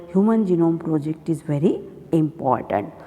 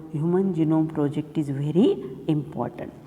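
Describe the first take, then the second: No difference in how they are said.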